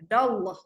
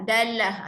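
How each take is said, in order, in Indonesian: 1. Bunyi 'll' itu tebal dan penuh. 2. Bunyi 'll' itu tipis dan ringan. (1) "kat sini tebalkan dallah" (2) "tu bacaan nipis"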